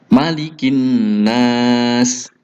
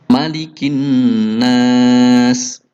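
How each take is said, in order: The two takes are said the same way.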